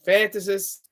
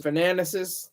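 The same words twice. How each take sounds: First: FANTASIST, with a clear T straight after FAN; corrected pronunciation. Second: FANATICIST, stumbled into with extra syllable after FAN; mispronounced fantasist. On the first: Speaker fixes own slip on author's label, carefully corrected FANTASIST. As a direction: say FANTASIST in three syllables, FAN-tuh-sist. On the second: Speaker fumbles word for a fantasy author, mispronounced as FANATICIST. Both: Real, not acted. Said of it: "if I can say that right".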